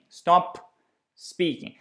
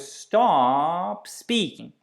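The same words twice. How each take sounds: First: The airflow stops after 'stop' before 'speaking'. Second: The p flows straight into 'speaking' without stopping. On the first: The speaker calls it wrong. "we kind of stop the airflow with the consonants, and then we need to start the next one" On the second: The speaker calls it right. "We don't interrupt the airflow"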